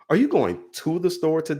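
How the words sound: The word 'going' carries the strongest stress. "going down the line of each word"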